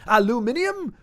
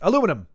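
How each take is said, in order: First: It is said the British way, with five syllables. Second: It is said the American way, with four syllables. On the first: The speaker calls it wrong. "When British people say it, it's like they have to rev up to it" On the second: The speaker calls it right. "Whereas in America, aluminum"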